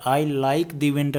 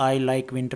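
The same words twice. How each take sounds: First: Slow, leaning on the; the drawn out and stressed, said slowly; wrong version with the. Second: Said in the usual way. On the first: Shown as a demonstration. Teacher to students, stressing the wrong the. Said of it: "वो गलत होगा". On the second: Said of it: "वो सही होगा".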